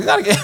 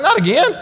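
First: Higher, groaning not again; exasperated disbelief. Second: Much higher, laughing not again; laughing disbelief. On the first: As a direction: sigh it out in disbelief. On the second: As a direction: squeak it through a laugh. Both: Retold or imitated. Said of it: "I'm like".

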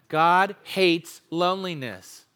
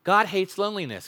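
First: God stressed, each word slowed for the room to join; slow group recitation. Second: Said in the usual way. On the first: Shown as a demonstration. Preacher leads the congregation, slow unison recitation. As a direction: say it slowly, leading the congregation. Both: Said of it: "Can we say that together?".

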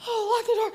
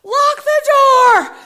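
First: Higher-pitched, unshouted "oh" of understanding; bright-idea echo of a command; sudden realisation. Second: High, loud, stretched-out scream; blaring command from inside the head; yelling inner voice. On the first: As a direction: catch on and obey. Echoing the voice's order as realisation. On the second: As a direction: holler an urgent order slowly. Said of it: "his voice says". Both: Retold or imitated.

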